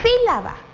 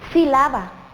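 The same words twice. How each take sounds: First: The stress falls on the first syllable. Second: The stress falls on a later syllable. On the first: The speaker calls it right. "se acentúa en la I porque es una esdrújula" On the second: The speaker calls it wrong. "¿Será que se pronuncia de esa manera? Mm, yo creo que no"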